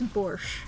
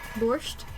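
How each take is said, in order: First: The word ends without a t sound. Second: The word ends with a t sound.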